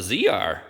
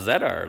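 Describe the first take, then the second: First: The letter Z is said as 'zee'. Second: The letter Z is said as 'zed'. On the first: This is how it is said in the States. "in the States, that's a Z R" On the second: This is how it is said in Canada. "not a Z R"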